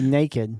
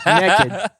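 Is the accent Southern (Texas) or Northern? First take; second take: Northern; Southern. First: It is said the Northern way, 'nay-kid'. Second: It sounds like 'neckid', a Texas accent.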